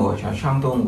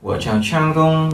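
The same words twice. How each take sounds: First: Said in the usual way. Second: Tôi chào Trang Đông said higher, echoing the recording; teacher repeats "Tôi chào Trang Đông" higher for students; repeating the model line. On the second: Shown as a demonstration. Teacher echoes the recording for the class, raised pitch. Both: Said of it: "Tôi chào Trang Đông, đúng không?".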